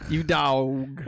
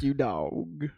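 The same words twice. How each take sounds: First: It is said in a playful, admiring way. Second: It is said in a scornful, insulting way. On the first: The person is being praised. "When when you say it like that, means it's a good thing" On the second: The person is being insulted. "I didn't mean it like that. I meant more like"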